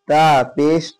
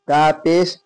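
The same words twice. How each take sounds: The two takes are said the same way.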